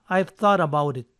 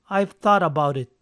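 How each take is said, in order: The two takes are said the same way.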